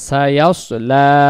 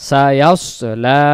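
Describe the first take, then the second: No difference in how they are said.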